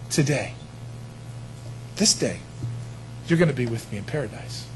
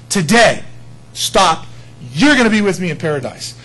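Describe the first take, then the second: First: Soft, low, unhurried promise; quiet promise. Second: "Today" hit loud, then a full stop before "you're gonna be with me in paradise"; pause after Today. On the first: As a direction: say it gently as one flowing line. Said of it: "that's not the structure of what he said". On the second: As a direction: punch "Today", stop dead, then finish the promise. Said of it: "In the Greek, it's no". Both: Shown as a demonstration.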